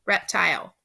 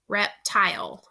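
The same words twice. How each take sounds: First: Said in the usual way. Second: "Reptile" broken in two, a pause between syllables; split into syllables. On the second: Shown as a demonstration. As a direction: separate "Reptile" into two careful beats, adding no extra sounds. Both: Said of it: "Think about your two syllables and separate them".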